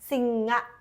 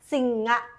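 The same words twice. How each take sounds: No difference in how they are said.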